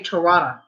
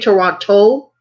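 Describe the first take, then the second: First: It is pronounced the Canadian local way. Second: It is pronounced the American way. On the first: "They say Toronto" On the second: "We say Toronto"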